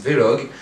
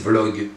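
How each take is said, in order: First: Vlog pronounced "vé-log"; two-syllable Vlog. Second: Vlog with v and l run together; one-syllable Vlog. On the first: Vlogger showing how some people say it, Vlog as "vé-log". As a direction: put an é between v and l in Vlog. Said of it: "il y en a d'autres qui disent". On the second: Vlogger showing how others say it, Vlog in one syllable. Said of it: "Il y en a certains qui disent". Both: Shown as a demonstration.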